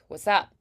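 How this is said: Casual and loose, with barely enunciated sounds. It sounds like street language. "the normal casual way like what's up, ... people don't really enunciate at all"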